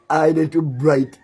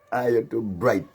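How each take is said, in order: First: Higher, louder, slow sneering brag; mock boast. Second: Said in the usual way. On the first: Jeering at the rival's brag, loud slow mockery. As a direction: stretch his boast out to ridicule it.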